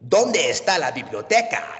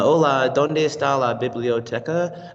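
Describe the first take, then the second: First: It is said dramatically, like a telenovela. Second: It is said plainly, without drama.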